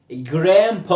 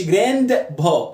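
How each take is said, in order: First: جراند با said "gram-pa", D silent; American "grampa" for جراند با; dropped D. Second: جراند با said "grand-ba", with an audible D; D wrongly sounded. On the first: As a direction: say جراند با without any D. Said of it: "بعمل دروب للدي". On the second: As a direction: pronounce the D in جراند با as a learner would. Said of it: "ما تقولش". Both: Shown as a demonstration.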